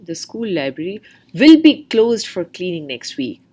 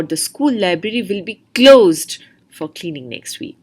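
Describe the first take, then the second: First: "will" leaned on, line a bit louder; teacher stresses "will" in the demo. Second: "closed" pushed hard, louder line; stress on closed. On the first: Teacher demonstrating stress to test-takers, hitting "will". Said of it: "stressing the few important portion". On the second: Teacher contrasting stress for students, landing on "closed". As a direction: punch the word "closed". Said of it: "where the speaker has stressed upon". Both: Shown as a demonstration.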